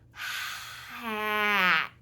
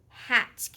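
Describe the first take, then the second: First: Each sound is drawn out slowly. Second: The word is said at normal speed.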